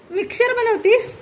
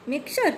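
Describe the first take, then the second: First: Put-on high, amazed question to a child; playful surprise. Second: Said in the usual way. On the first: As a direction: act delighted that she makes a mixer. Mother plays kitchen with child.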